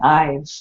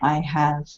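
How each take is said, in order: First: It is said as one contracted syllable. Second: It is said as two full words. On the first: It sounds casual and natural. The speaker calls it right. "the contracted pronunciation" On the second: It sounds formal. The speaker calls it wrong. "sounds more formal"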